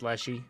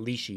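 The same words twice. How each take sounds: First: The first syllable sounds like 'lesh', a short vowel. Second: The first syllable sounds like 'leaf' without the f. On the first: "But maybe it's Leshy" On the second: "I've been saying Leshy because I think of a leaf"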